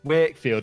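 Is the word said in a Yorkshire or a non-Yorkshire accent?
Yorkshire. It is said in a Yorkshire accent. It sounds like it could be a name. "The second [name] says Wakefield, you're like, oh, I can hear it now"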